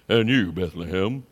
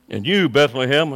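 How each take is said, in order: First: It is said in a put-on, dramatic voice. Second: It is read in a plain, ordinary voice.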